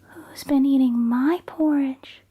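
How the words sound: It is said in Mama Bear's medium-sized voice.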